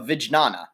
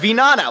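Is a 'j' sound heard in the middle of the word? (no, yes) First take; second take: yes; no. First: A j sound is heard mid-word. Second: No j sound is heard mid-word. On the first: The speaker calls it wrong. "That's a horrible pronunciation" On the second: The speaker calls it right. "Perhaps it's more like vinana"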